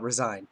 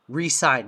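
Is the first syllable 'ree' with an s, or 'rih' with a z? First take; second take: rih with z; ree with s. First: It begins 'rih' and then a z sound. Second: It begins 'ree' and then a clear s sound. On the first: To quit a position. The speaker calls it wrong. "not resign" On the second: To sign a contract again. The speaker calls it right. "resign, not resign"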